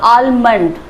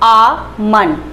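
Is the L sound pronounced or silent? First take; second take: pronounced; silent. First: The L sound is pronounced. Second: The L sound is silent. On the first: The speaker calls it wrong. "But ये गलत है" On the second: The speaker calls it right. "इसका एल जो है वो silent होगा"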